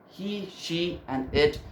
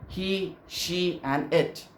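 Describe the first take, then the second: The two takes are said the same way.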